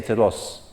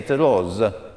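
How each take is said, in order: First: It is spoken with a Greek accent. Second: It is spoken with an Italian accent. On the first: "In Greece, they may say" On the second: "if you're Italian, you may say"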